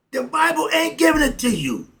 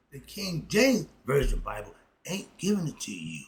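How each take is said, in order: First: High and loud, hammering the point; loud declaration. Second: Said in the usual way. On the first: Real, not acted. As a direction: proclaim it hard to the audience. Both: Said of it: "Oh, excuse me".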